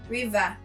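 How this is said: It is said in a Cameroonian accent.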